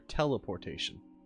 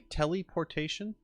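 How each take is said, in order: First: The first part sounds like 'tell'. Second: The first part sounds like 'telly'. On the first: "I always hear teleportation" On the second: "I've never heard it pronounced that way"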